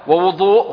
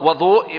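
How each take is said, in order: First: The first vowel is a rounded 'u' sound. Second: The first vowel is an open 'a' sound. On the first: It names the act of washing. "ووضوء هو فعل الوضوء" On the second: It names the water used for washing. "وضوء ما يتوضأ به وهو الماء"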